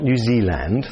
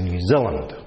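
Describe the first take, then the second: First: "New Zealand" with a clear open "a" in "-land"; English pronunciation. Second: "New Zealand" with the last syllable reduced to "lund"; Kiwi pronunciation. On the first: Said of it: "Not New Zealand, that's very English". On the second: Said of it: "We say New Zealand". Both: Shown as a demonstration.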